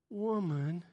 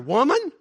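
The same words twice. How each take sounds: First: The word is said softly and gently. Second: The word is said short and abrupt. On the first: It is a tender, affectionate address. "It wasn't woman" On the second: It is a plain, corrective address. "he said it like that. ... It was very abrupt"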